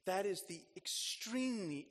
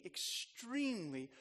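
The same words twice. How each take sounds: First: Said in the usual way. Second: "extremely" drawn out slowly and leaned on; slow stressed repeat. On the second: Acted. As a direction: stretch "extremely" out for weight. Repeats word for emphasis.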